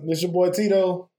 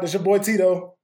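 First: It is said with low energy. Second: It is said with more energy.

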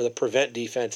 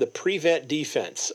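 First: The stress falls on the second syllable of defense. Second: The stress falls on the first syllable of defense.

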